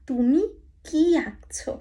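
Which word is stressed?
কি. The stress falls on the word কি. It asks what the listener is drawing. "এটার অর্থ হয়ে যাবে তুমি কি আঁকছো"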